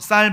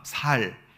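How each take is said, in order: First: The first consonant is tense and strong. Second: The first consonant is plain and soft. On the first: The speaker calls it right. "쌀 발음해봐" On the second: The speaker calls it wrong. "쌀 발음을 못하고 살 이렇게 발음하는"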